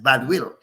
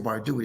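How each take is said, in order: First: The name is said in a Caribbean accent. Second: The name is said in a plain accent. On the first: "with the accent" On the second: "they don't say Bardui"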